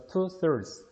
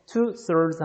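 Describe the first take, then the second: First: "thirds" ending in a weakly sounded s; weak final s. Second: "two thirds" with the final s left off; missing plural ending. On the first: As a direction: add a light s to close "thirds". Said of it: "스스를 자꾸 약하게 좀 발음이 들어간다". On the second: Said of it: "뭔가가 좀 부족해요". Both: Shown as a demonstration.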